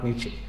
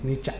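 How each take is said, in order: First: The name ends in an 'e' vowel. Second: The name ends in an 'a' vowel. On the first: The speaker calls it wrong. "Not നീച്ചെ" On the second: The speaker calls it right. "The correct pronunciation of നീച്ചെ is നീച്ച"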